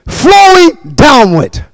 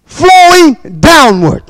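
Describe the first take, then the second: No difference in how they are said.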